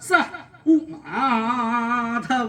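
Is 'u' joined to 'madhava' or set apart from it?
set apart. 'U' is set apart from 'madhava' by a break. It refers to Madhava. "ഇപ്പൊ പറഞ്ഞത് എന്താ?"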